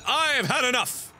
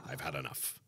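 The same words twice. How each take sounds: First: High, emphatic declaration of being fed up; fed-up outburst. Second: Very low, soft, resigned aside; deflated mutter. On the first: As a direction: burst out as if at the end of your patience. Fed up, ending the episode. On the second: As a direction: drop right down and mumble it to yourself. Same words again as deflated mutter. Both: Pretend.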